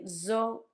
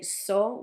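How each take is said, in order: First: The word begins with a 'z' sound. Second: The word begins with an 's' sound. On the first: "If you say zo to someone, they will understand" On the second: "the way that some Spanish people would say"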